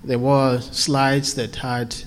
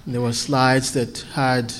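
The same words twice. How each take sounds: The two takes are said the same way.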